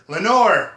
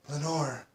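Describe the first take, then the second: First: Loud, higher cry of "Lenore!"; ringing echo, louder and higher; echoed name. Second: Very soft, hushed "Lenore"; hushed whisper. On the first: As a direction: call the name out, pitch lifted then falling. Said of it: "an echo murmured back". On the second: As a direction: breathe the name out softly, barely voiced. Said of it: "was whispered". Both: A narrator's reading.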